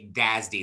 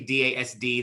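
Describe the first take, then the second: First: It is said as a single word. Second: It is spelled out letter by letter. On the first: The speaker calls it right. "they say D A S D. They pronounce it" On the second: The speaker calls it wrong. "They do not say D A S D"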